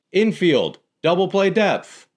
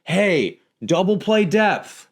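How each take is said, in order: First: High, projected call to infielders; neutral, drawn-out field instruction; purely instructive yell. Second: High, slow, scolding call; demonstrated exasperated call to infielders; shaming yell. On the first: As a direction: call it out with no blame. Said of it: "That's just saying". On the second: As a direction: yell it as if they were stupid. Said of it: "Why aren't you in double play depth? Are you stupid?". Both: Shown as a demonstration.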